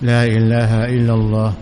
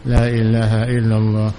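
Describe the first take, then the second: Both takes have the same delivery.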